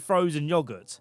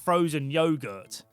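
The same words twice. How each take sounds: First: Yogurt is pronounced the English way. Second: Yogurt is pronounced a non-English way. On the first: The speaker calls it right. "English people say" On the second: The speaker calls it wrong.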